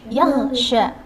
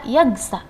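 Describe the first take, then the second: First: The last syllable starts with an sh sound. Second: The last syllable starts with a plain s sound. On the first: The speaker calls it right. "Tapi yaghsha" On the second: The speaker calls it wrong. "Jangan dibaca yaghsa"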